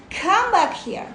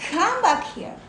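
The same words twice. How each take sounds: First: Higher, louder coaxing call, like calling a pet back; gently lovingly. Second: A higher, kind call that pulls the mind back; gently lovingly. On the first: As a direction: call the wandering mind home kindly. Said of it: "gently, lovingly say". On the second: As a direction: coax it back like a puppy. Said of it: "like this". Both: Shown as a demonstration.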